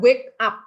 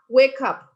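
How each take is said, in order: First: The two words are said with a break between. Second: The two words run together without a break. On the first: The speaker calls it wrong. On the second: The speaker calls it right.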